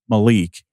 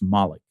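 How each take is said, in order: First: The name is said the Americanized way. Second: The name is said the German way. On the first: This is how the school says the name. "Michigan did call him Malik" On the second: This is how the player says his own name. "he pronounced it for us Malik"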